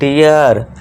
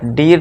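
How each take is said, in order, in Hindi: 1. स्वर 'ee' से 'uh' की ओर खिसकता है। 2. बिना किसी खिसकाव के, लंबा और सादा 'ee' स्वर। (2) "डीर नहीं"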